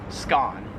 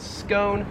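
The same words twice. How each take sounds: First: "scone" rhyming with "gone"; short open O in "scone"; Australian pronunciation. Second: "scone" with a long O, like "bone"; American pronunciation. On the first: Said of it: "whereas in Australian English". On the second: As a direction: rhyme "scone" with "own". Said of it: "we pronounce that in American English as". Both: Shown as a demonstration.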